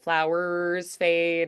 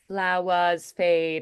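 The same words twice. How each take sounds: First: The R sound is strong and held long. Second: The R sound is soft and barely held. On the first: The speaker calls it wrong. "instead of" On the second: The speaker calls it right. "It's going to be a lot prettier"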